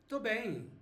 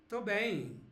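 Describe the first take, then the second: The two takes are said the same way.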